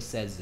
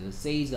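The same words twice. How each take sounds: First: The vowel sounds like the vowel in 'set'. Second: The vowel sounds like the vowel in 'say'. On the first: The speaker calls it right. "발음은 says입니다" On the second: The speaker calls it wrong. "says 아니에요"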